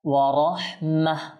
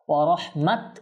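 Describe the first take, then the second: First: The word ends with a soft h sound. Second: The word ends with a t sound. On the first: The speaker calls it right. "এভাবে করে আমরা করব" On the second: The speaker calls it wrong. "এভাবে হবে না"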